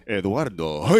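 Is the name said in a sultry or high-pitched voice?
high-pitched. It is said in a high-pitched voice.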